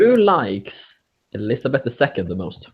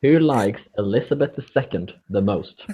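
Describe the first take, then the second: First: Rushed, words run together; quick mumbled question. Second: Repeated louder, each word clear. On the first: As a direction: fire it off quickly. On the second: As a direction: say it again so they hear it. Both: Real, not acted. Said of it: "A little bit what?".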